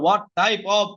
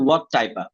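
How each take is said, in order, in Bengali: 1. 'Of' পুরোটা বলা হয়, শেষের ব্যঞ্জনসহ। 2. 'Of' ছোট 'uh' ধ্বনিতে বলা হয়। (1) "আমি কিন্তু বলতেছি না হোয়াট টাইপ অফ" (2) "আমি একটা উচ্চারণ করতেছি হোয়াট টাইপা"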